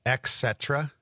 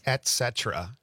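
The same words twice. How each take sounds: First: A K in place of the T in "et cetera"; mispronounced et cetera. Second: A clear T ending "et" in "et cetera"; corrected et cetera. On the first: Retold or imitated. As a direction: say "et cetera" as ek-SET-ra. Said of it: "don't like it when people say". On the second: Shown as a demonstration. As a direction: say "et cetera" as et-SET-er-a. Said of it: "It's et cetera".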